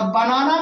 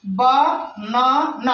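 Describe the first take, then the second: First: Said in the usual way. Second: "banana" very slow, each syllable on its own; split into syllables. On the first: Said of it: "हम खंडन करते हैं word का". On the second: Shown as a demonstration. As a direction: break it apart: बा, ना, ना. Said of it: "अर्थात हम खंडन करते हैं".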